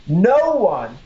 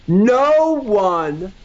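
First: Said in the usual way. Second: Leaning right into the mic; close to the mic. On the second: Shown as a demonstration. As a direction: say it close-up, for weight. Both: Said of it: "let me get closer when I say that".

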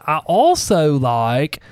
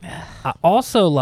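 First: "I also like" drawn out very slowly; deliberate restart. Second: Slow hillbilly twang, slightly raised pitch; hillbilly accent. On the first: Shown as a demonstration. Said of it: "I don't know why I sound such a hillbilly". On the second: Real, not acted. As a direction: let a hillbilly drawl slip out. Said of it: "I sound such a hillbilly".

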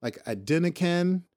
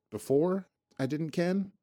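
First: "ken" rhymes with "pen", slow. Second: "ken" said with a rising tune. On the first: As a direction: slowly stress "ken" like a Scot. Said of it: "So Ken can be present tense". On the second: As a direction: lift the end on "ken". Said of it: "But also I didn't". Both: Shown as a demonstration.

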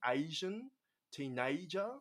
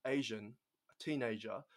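First: Put-on ASIAN and TEENAGER with A glided into "ay-ee"; A turned to AY. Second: Said in the usual way. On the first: Shown as a demonstration. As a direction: stretch the A of Asian and teenager toward AY. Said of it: "make the A almost into, like, an A Y". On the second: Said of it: "normally when we would say".

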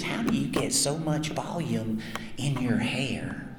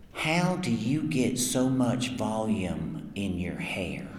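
First: Slow, quiet, deadpan question; imitating the girlfriend. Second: Slow, quiet, earnest question; imitating the girlfriend. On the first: Retelling the girlfriend's question to the crowd, slow deadpan. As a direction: repeat her question dead serious and slow. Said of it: "She was dead serious". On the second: To the voice actor at the table, a fan's girlfriend asks, slow and earnest. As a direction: play her dead serious, eyes locked, asking slowly. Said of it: "this is a really good impersonation".

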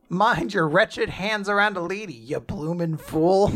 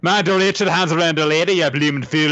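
First: Mock scolding in a vague British accent; rough stab at an old-fashioned British accent; unknown British-style accent. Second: Higher, hammed-up Scottish-style scolding; exaggerated Scottish-like accent. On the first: Lady scolding a man who touched her, in a vague British accent. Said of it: "I don't know what accent that's meant to be". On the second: Shown as a demonstration. Friend imagining the insulted lady's line in a high Scottish-style accent. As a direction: put on a broad, vaguely Scottish accent, pitched up. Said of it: "I guess Scottish, I guess".

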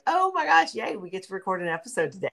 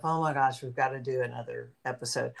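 First: High, delighted squeal on the opening; excited. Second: Low-key, weary little complaint; reluctant. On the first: Co-host acting out her joy at recording, excited. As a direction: burst out gleefully, then rush on. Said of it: "I'm always like". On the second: Co-host imagining dreading another recording, reluctant. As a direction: grumble it softly, like facing a chore. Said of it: "I never think to myself". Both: Acted.

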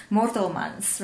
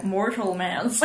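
First: Mortelmans said the Afrikaans way, rolled r; Afrikaans accent. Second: Mortelmans anglicised, like mortal mans; English accent. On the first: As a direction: Mortelmans with Afrikaans vowels, MOR-tel-mans. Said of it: "I actually wanna say it in an Afrikaans accent". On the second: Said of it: "if you try to say it in an English accent". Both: Shown as a demonstration.

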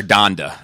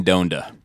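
First: the title in the corrected pronunciation. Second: the title in the first pronunciation. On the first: Podcaster correcting the name for a co-host, alternative pronunciation of the title. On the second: Podcaster introducing a rapper's album topic, first pronunciation of the title. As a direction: say the title the first way, before correcting it. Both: Real, not acted. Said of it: "I guess I should say".

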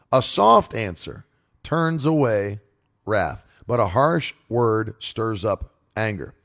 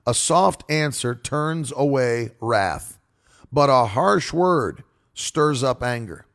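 First: Slow, deliberate repeat of the verse; scripture reading. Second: Slow, deliberate verse reading; scripture reading. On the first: Preacher repeating the proverb for emphasis, slow. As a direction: lean on "harsh" as he repeats it. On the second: Preacher reading the proverb to listeners, slow and deliberate. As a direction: let each word of the proverb land. Reads a Bible verse slowly. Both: Acted.

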